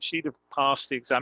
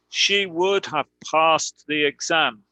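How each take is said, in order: First: 'Would' is contracted onto 'she' as 'she'd'. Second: 'Would' is pronounced in full as a separate word.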